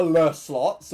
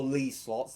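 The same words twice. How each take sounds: First: "Le" with a short neutral vowel, like "luh". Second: "Lee" with a long ee vowel. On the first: Streamer naming the slot series to viewers, "Le" as "luh". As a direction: say "Le" as "luh", drawn out and loud. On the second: Streamer offering the other name to viewers, "Lee" with long ee. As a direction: say "Lee" to rhyme with "see". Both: Shown as a demonstration. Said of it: "is it Le or Lee?".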